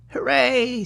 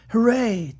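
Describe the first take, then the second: First: It is said in a put-on rabbit voice. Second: It is said in the reader's normal voice.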